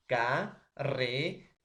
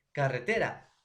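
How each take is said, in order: First: Ca-re-te-ra in four slow, separate beats; syllable by syllable. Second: Said in the usual way. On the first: Shown as a demonstration. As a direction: draw out and separate each syllable: ca-re-te-ra. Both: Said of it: "esa división lo vamos a llamar sílabas".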